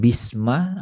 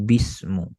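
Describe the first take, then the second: First: The word ends with the vowel a. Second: The word ends with the vowel u.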